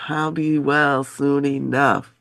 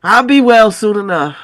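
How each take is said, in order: First: Slow, soft, weary; weak and soft. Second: Said in the usual way. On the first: Shown as a demonstration. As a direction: say it softly and slowly.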